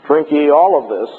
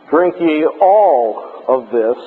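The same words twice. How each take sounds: First: "Drink ye all of this" with the weight on "all", meaning all of the wine; stress on all. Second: "Drink ye all of this" with weight on "ye" and "all", said slowly; stress on all of you. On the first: Lecturer showing the verse meaning drink it all, stress on all. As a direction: hit "all" so it means finish the cup. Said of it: "means don't have any left over". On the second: Lecturer showing the Bible verse meaning all of you, slow stress on ye. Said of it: "means all of you drink it". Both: Shown as a demonstration.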